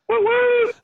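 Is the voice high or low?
high. It is said in a high soprano voice.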